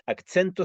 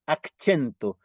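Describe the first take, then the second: First: Accento said with a ts sound, akt͡sento; Esperanto pronunciation. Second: Accento said with a ch sound, akt͡ʃento; Esperanto pronunciation. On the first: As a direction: say accento with ts in the middle. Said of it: "se refiere a en qué parte". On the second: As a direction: say accento with ch in the middle. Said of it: "decimos accento". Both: Shown as a demonstration.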